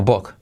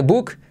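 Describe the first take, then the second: First: "book" with a short u like o; "book" said short, the correct way; right vowel. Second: "book" with a long u as the mistake; wrong vowel. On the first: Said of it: "sino book". ("book" con la vocal correcta) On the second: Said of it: "No se dice book". ("book" con la vocal incorrecta) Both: Shown as a demonstration.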